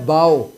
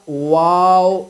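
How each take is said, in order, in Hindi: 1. यह शब्द b की आवाज़ से शुरू होता है। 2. यह शब्द गोल w की आवाज़ से शुरू होता है। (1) "वाव नहीं कहना है बाव" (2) "बल्कि इसको कहना है आप वाव। दोनों होठों को गोल करना है"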